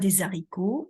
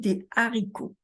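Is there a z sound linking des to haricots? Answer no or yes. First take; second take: yes; no. First: A z sound links des to haricots. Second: No z sound links des to haricots. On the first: The speaker calls it wrong. "on ne dit pas des haricots" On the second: The speaker calls it right. "on dit des haricots"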